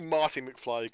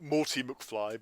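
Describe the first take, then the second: First: Said in the usual way. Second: "Morty" with a rounded OR in the first syllable; wrong-name "Morty", OR where AR belongs; mispronounced name. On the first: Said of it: "it's really Marty McFly". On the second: Shown as a demonstration. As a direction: say "Morty" like "more-tee". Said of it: "they call it Morty McFly".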